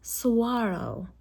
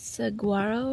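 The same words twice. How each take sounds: First: The G is said like a W sound. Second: The G is said as a hard G. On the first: The speaker calls it right. "It's not a hard G. It's like a W instead" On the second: The speaker calls it wrong. "I'm sure I'm butchering this name"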